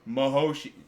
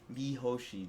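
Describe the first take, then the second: First: The first syllable sounds like 'ma'. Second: The first syllable sounds like 'mee'. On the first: This is the pronunciation heard in the old dub. The speaker calls it wrong. "I know you're pronouncing it the way those old voice actors always did" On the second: This is the pronunciation the other person prefers. The speaker calls it right. "do you feel better?"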